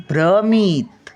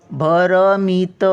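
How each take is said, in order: First: भ्रमित with भ्र joined, no vowel between; correct conjunct version. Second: भरमित with a full अ after भ, slow; wrong split version. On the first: Teacher giving the correct joined form after the wrong one. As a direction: say भ्रमित with a tight भ्र cluster. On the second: Teacher contrasting the wrong split with भ्रमित. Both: Shown as a demonstration. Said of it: "भ्र हा जोडाक्षरी शब्द आहे".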